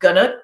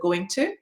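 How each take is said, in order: First: The words are reduced and run together. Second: Each word is said fully and separately. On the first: "use the connected speech form" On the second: "instead of"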